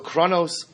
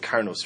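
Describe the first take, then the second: First: The word is said with a different first syllable. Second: The word is said with 'kar' as first syllable. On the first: The speaker calls it wrong. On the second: The speaker calls it right.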